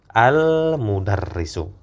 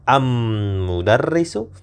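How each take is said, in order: First: The L is clearly pronounced before the m. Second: The L is dropped and the m is doubled. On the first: The speaker calls it right. "Lamnya masih terbaca" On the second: The speaker calls it wrong. "lamnya tidak terbaca am mudarrisu ternyata tidak"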